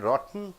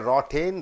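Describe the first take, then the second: First: The T is held, going straight into N. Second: The T is fully released before the N. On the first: The speaker calls it right. "you are jumping into N" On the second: The speaker calls it wrong. "you don't say"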